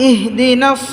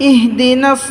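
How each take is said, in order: Both takes have the same delivery.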